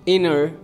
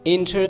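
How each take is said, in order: First: The T after N is dropped. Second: The T after N is clearly pronounced. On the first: The speaker calls it right. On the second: The speaker calls it wrong.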